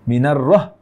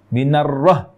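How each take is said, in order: No difference in how they are said.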